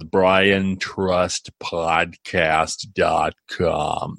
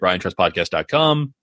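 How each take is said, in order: First: It is said slowly and deliberately. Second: It is said at normal speed.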